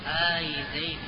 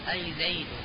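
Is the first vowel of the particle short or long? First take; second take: long; short. First: The opening hamza vowel is drawn out long. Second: The opening hamza vowel is short.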